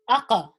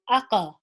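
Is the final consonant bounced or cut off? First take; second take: bounced; bounced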